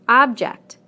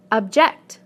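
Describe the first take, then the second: First: OB-ject, the noun, falling; stress on first syllable. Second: Ob-JECT, the verb; stress on second syllable. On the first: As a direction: punch OB in Object. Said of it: "first syllable in the nouns". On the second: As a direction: punch JECT in object, weak ob. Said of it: "second syllable in the verbs". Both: Shown as a demonstration.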